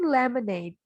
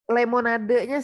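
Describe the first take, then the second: First: It is said with English pronunciation. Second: It is said with Indonesian-style, spelled-out pronunciation. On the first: The speaker calls it right. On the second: The speaker calls it wrong.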